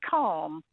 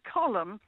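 First: The L is silent, like the word calm. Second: An extra vowel sits between the L and M. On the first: "not Calm" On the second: "I wouldn't have said Colm because there's no U in it"

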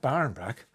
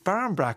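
First: The first word ends with an n sound. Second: The first word ends with an m sound. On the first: The speaker calls it wrong. "it's not Barn Brack" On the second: The speaker calls it right. "It's Barm Brack"

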